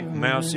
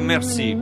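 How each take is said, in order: First: The word is said with an American pronunciation. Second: The word is said with a French pronunciation. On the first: "mercy all'americana" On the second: "francese si dovrebbe dire merci"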